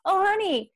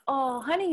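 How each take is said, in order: First: « Oh, honey » much higher, teasing, falling; « Oh » jumps up high then falls in mock teasing. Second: « honey » à peine montant, voix douce; « honey » say it gently with a slight lift; oh honey, mild rise. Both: Shown as a demonstration. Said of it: "We will say things like".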